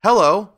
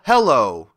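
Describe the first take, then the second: First: High, loud "hello" with a lift at the end; calm reply. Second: Loud "hello" with a falling end; charm incantation. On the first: Tin Woodman answering Dorothy's charm as a greeting, calm reply. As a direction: answer like an everyday greeting, rising. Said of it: "replied the Tin Woodman calmly". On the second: Dorothy finishing a line of the charm, loud incantation. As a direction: proclaim it as a magic word, falling. Last word of magic charm. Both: A narrator's reading.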